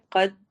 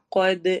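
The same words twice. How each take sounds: First: قد said plain, with no echo on the د; flat قد, the د closed with no bounce; wrong qad. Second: قد with the final د bounced, an echo sound; qalqala on qad. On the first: Teacher showing students the wrong way, قد with no echo. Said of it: "قد نہیں پڑھنا". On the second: Teacher showing students the right way, قد with an echoing د. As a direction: release the د of قد with a clear echo. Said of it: "ایکو sound ہوگی کیونکہ کلکلا ہو رہا ہے". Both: Shown as a demonstration.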